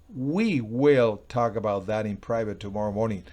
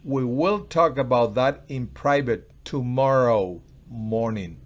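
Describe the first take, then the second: First: The word we carries the strongest stress. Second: The word tomorrow carries the strongest stress. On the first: Only the two of us, not others, will talk. "Nosotros, o sea, no es tú con ellos, ni es ellos" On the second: It will happen tomorrow, not now. "No ahora, tomorrow"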